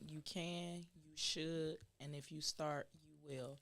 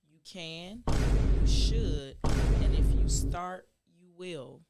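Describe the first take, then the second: First: It is said at a normal speed. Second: It is said slowly.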